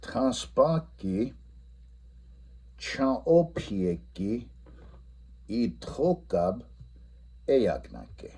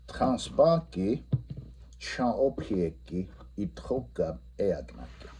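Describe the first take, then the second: First: Each Lakota word slowly stretched; modelling the Lakota answer slowly; slow model answer. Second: Repeating the Lakota answer; repeat answer, slow. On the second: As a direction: say the answer once more. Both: Shown as a demonstration. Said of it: "the answer should be".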